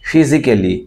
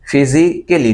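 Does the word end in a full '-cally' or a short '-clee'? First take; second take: cally; cally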